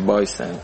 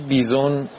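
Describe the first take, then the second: First: The first vowel sounds like 'eye'. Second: The first vowel sounds like 'ee' in 'see'. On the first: The speaker calls it right. "تلفظ صحیحش هست بایسن" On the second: The speaker calls it wrong. "اون چیزی که تلفظ کردی بیزون غلطه"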